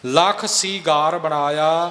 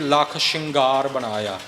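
First: The word starts with s and has a long vowel. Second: The word starts with sh and is nasalized. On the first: The speaker calls it right. "ਇਸ ਤਰ੍ਹਾਂ ਨਹੀਂ ਕਰਨਾ।" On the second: The speaker calls it wrong. "ਇੱਥੇ ਆਮ ਤੌਰ ਤੇ ਪਾਠੀ ਰਾਗੀ ਗਲਤੀ ਕਰਦੇ ਨੇ ਜੀ"

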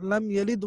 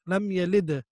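First: The final d is stopped without an echo. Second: The final d has a small echo bounce. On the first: The speaker calls it wrong. "The common mistake is very simple" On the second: The speaker calls it right. "So we need to do echo always"

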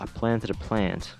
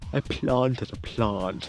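First: It is said in a plain accent. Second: It is said in a posh accent.

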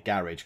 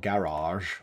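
First: It is said in an English accent. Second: It is said in a non-English accent.

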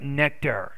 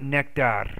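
First: The final R sound is clearly pronounced. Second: The final R sound is weak or missing. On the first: The speaker calls it right. "but nectar ... So be careful of your R's" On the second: The speaker calls it wrong. "not nectar"

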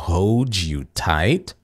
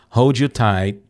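First: Spoken slowly with the final T released. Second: Spoken naturally with the final T held. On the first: "eu tô falando esse T aqui porque eu tô falando bem devagarinho" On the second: "se eu estiver falando naturalmente, ... vou fazer um stop T"

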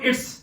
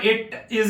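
First: It is said as one short contracted word. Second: It is said as two separate full words. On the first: "ਆਪਾਂ ਇਹਨੂੰ ਛੋਟਾ ਕਰ ਲਾਂਗੇ" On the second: "ਜੇ ਇਹਨੂੰ ਅਸੀਂ ਲੰਬਾ ਕਰਕੇ ਬੋਲਾਂਗੇ"

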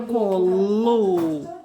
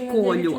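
First: The word ends with a hard 'lu' sound. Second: The word ends with a soft 'lyu' sound. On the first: The speaker calls it right. "а колу" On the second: The speaker calls it wrong. "Не колю"

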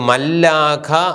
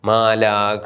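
First: The l consonant is doubled after a short vowel. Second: The first vowel is long with a single l. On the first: This is the form the regular rule predicts. "ഇത് മല്ലാഖ ആണ് വരേണ്ടത്" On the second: This is how the word is actually read. "അത് മാലാഖ"

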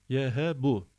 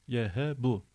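Both takes have the same delivery.

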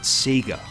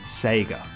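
First: Sega is said the way Australians say it. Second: Sega is said the way non-Australians say it. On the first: This is how the speaker grew up saying it. "I know I pronounce it Sega" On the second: This is how others expect it to be said. "not Sega"

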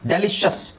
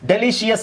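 First: The ending is one short syllable: shus. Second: The ending has an extra 'ee' sound: shee-us. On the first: The speaker calls it right. "ಡೆಲಿಷಸ್ ಅಂತ ಹೇಳಿದ್ರೆ ಸಾಕು" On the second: The speaker calls it wrong. "ಡೆಲಿಷಿಯಸ್ ಅಲ್ಲ"

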